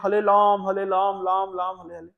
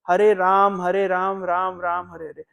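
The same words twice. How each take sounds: First: The r sounds are pronounced as l. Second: The r sounds are pronounced as r. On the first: "तो र को ला उच्चारण करते" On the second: "जैसे अभी हम लोग महामंत्र करते हैं"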